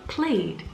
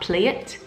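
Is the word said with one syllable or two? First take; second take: one; two. First: The ending adds no extra syllable. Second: The ending is an extra syllable. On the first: The speaker calls it right. "One sound, one syllable" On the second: The speaker calls it wrong. "and not play it"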